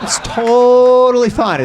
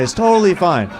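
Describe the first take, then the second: First: Slow, louder, higher "totally"; slow, loud "It's totally fine."; drawn-out totally fine. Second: Said in the usual way. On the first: Shown as a demonstration. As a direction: stretch out "totally" sarcastically.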